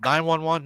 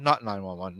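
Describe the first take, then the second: First: "Nine one one" pitched up, as one option; torn deliberation. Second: "not nine one one" dropped low, as the alternative; torn deliberation. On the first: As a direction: weigh "Nine one one" on a higher note. Weighing whether to call police. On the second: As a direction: weigh "not nine one one" on a lower note. Weighing the opposite option. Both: Retold or imitated.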